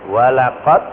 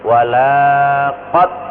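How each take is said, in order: First: The vowel after the l is short. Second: The vowel after the l is long. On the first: It means 'and indeed'. The speaker calls it right. "lam dibaca pendek ini artinya sungguh-sungguh" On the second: It means 'and indeed not'. The speaker calls it wrong. "karena lamnya dipanjangkan"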